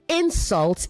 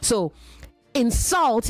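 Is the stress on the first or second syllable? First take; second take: first; second. First: The stress is on the first syllable. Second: The stress is on the second syllable. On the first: It is used as a noun. "insult is the noun" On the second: It is used as a verb. "insult is the verb"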